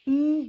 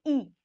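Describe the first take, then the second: First: Long, held 'ई' vowel. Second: Short, light 'ई' vowel. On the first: Teacher showing learners the big vowel, 'ई' drawn long. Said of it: "ये आपकी बड़ी ई". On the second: Teacher showing learners the short vowel, 'ई' kept short. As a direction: say 'ई' as a brief ee. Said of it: "छोटी ई". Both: Shown as a demonstration.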